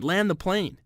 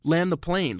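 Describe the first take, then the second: First: Higher, more desperate yell; screaming. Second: Raised panicked yell; screaming. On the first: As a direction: push the panic up a notch. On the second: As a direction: shout it out in panic. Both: Retold or imitated. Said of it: "screaming at the top of my lungs".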